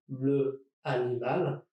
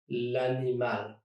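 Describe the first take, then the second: First: The article keeps its own vowel before animal. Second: The article's vowel is dropped and joined on. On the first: The speaker calls it wrong. "instead of saying le animal" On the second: The speaker calls it right. "I'm going to say l'animal"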